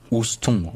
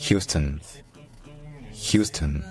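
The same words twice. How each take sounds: First: "Houston" as ous-ton, silent h, nasal ending; French spelling reading. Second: "Houston" as HYOO-stun, stressed first, schwa ending; English pronunciation. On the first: Teacher showing what not to say, French reading. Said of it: "ne se dit certainement pas Houston". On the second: Teacher modelling the Texas city, English pronunciation. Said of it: "Mais en anglais, c'est". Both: Shown as a demonstration.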